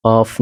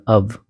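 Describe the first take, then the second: First: OFF said "awf", ending in f; OFF pronunciation. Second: अब said "uv", a short vowel with voiced end; OF pronunciation. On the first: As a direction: open vowel and clear f in OFF. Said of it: "off नहीं". (OFF को "ऑफ़" पढ़ना) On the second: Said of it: "O F को अब पढ़ना". (OF को "अव" पढ़ना) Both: Shown as a demonstration.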